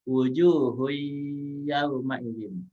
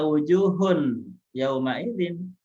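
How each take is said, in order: First: The n sound merges straight into yauma. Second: The n sound is clearly pronounced before yauma. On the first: The speaker calls it right. "Tanwinnya dilebur, dia langsung masuk ke huruf iya" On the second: The speaker calls it wrong. "Tidak dibaca wujuhun yauma idzin"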